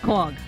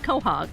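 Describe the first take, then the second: First: It is squeezed into one short syllable. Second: It is said with two separate syllables. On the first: This is how local fishermen say it. The speaker calls it right. "pronounce it correctly" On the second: This is how people from the Cape say it. The speaker calls it wrong. "we said quahog. I guess we're just wrong"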